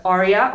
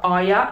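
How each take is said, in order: First: "Arya" with the R pronounced. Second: "Arya" with the R dropped; Arya without the R. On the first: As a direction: sound the R in "Arya". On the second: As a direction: leave the R silent in "Arya". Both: Shown as a demonstration. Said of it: "pronounce the R or not".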